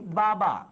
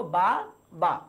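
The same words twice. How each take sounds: First: Said in the usual way. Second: বা, বা as two separate beats; split into syllables. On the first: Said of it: "আমি যদি বলি বাবা". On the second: Shown as a demonstration. Teacher shows students how many syllables one breath gives, split into syllables. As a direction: break the word into বা, বা, one syllable per breath. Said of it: "নিঃশ্বাসের স্বল্পতম প্রয়াসে কতটুকু উচ্চারণ করতে".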